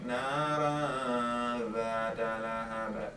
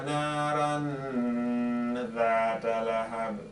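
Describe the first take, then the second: First: The n is hidden in a nasal sound without tongue contact. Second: The n is fully pronounced with the tongue raised. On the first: The speaker calls it right. "the proper way of saying it" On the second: The speaker calls it wrong. "let me read it wrong... you could hear the n sound"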